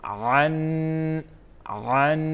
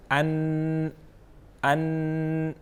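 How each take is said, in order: First: عن pressed from the throat. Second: ان with a light glottal start; hamza sound demo. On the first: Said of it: "یہاں سے پڑھیں گے حلق سے". (عن حلق سے ادا کریں) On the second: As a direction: say ان with a soft catch, not throaty. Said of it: "عین اور حمزے کی ساؤنڈ میں ڈفرنس ہے". (ان ہمزہ کی ہلکی آواز میں) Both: Shown as a demonstration.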